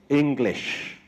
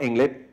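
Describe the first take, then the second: First: The final consonant is clearly pronounced. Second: The final consonant is dropped or weak. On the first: The speaker calls it right. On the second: The speaker calls it wrong.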